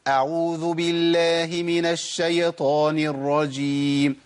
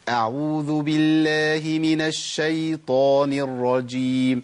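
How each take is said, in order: First: The y sound is given a vowel after it. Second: The y sound is silent with no vowel. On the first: The speaker calls it wrong. "تحريك الياء الساكنه ... ده خطا" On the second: The speaker calls it right. "امال اقولها ازاي؟"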